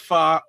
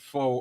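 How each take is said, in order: First: The vowel is an open 'ah' sound. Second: The vowel is a rounded 'oh' sound. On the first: This is what the dish is properly called. "it's called fa" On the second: This is how the speaker habitually says it. "I pronounce it fo all the time"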